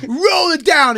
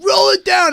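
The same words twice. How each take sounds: First: High, loud angry command; cop barking. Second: Very high, loud furious yell; cop yelling louder. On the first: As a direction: bark the order. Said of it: "And he goes". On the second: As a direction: lose it at the driver. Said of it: "And he went". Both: Retold or imitated.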